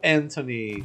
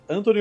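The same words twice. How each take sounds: First: The name is said with English sounds. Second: The name is said with Brazilian Portuguese sounds.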